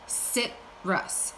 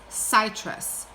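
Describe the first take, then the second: First: The first vowel is a short I sound. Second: The first vowel is a long I sound. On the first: The speaker calls it right. "but it's still a short I" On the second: The speaker calls it wrong. "I've never heard of citrus before"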